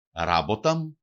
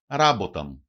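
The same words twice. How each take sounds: First: Ράμποταμ stressed on first syllable, ending left up; antepenultimate stress. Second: Ράμποταμ stressed on first syllable, falling; antepenultimate stress. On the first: Teacher repeating the example for learners, first-syllable stress, unfinished tune. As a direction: stress the start of Ράμποταμ without dropping the end. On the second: Teacher showing the stress rule to learners, first-syllable stress, falling. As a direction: hit the start of Ράμποταμ, let it fall. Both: Shown as a demonstration. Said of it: "προπαραλίγουσα συλλαβή".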